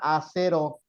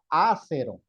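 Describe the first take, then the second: First: The stress is on the third syllable. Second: The stress is on the first syllable. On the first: "tendría que llevar acento acá" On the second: "tendría que tener un acento acá porque sería una esdrújula"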